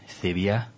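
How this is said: The name is said with Spanish pronunciation. "or as the Spanish say"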